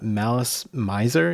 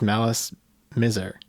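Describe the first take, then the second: First: The name is said with English pronunciation. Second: The name is said in neither of those styles. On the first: The speaker calls it wrong. "as a native English speaker, uh, Malice Miser is most intuitive for me to say" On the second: The speaker calls it right. "And it's neither, right? It's Malice Miser"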